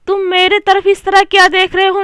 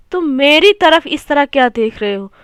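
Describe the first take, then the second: First: "मेरे तरफ" said higher, as the wrong sentence; wrong form मेरे तरफ. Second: Said in the usual way. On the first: Shown as a demonstration. Teacher reading the wrong sentence to students, raised pitch. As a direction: read "तुम मेरे तरफ" raised and questioning, to mark it wrong. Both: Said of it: "नहीं".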